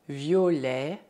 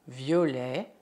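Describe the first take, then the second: Both takes have the same delivery.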